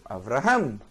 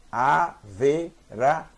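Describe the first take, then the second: First: Avraham quick, Avra in one syllable; fast reading. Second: Averaham slow, with an extra E between V and R; slow reading. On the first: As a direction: read it quickly, swallowing the vowel. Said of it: "eu vou ler rápido". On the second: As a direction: read it slowly, syllable by syllable. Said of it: "Se eu ler devagar é assim". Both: Shown as a demonstration.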